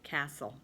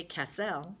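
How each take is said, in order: First: Said in the usual way. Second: "castle" as ka-SELL, stress on the last syllable; wrong-syllable stress. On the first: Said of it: "but castle". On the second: Shown as a demonstration. Teacher showing what not to say, "castle" stressed on the second syllable. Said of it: "we don't say castle".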